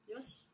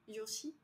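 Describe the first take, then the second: First: The final i vowel is dropped. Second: The final i vowel is clearly pronounced. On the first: The speaker calls it right. "le i ... il se prononce pas trop" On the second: The speaker calls it wrong. "plutôt Yosh que Yoshi"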